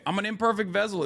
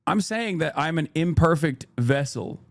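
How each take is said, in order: First: "imperfect" lifted high and softer; higher, softer "imperfect vessel"; stress on imperfect. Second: Said in the usual way. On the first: Real, not acted. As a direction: lean on the word imperfect. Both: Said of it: "how I'm emphasizing certain words".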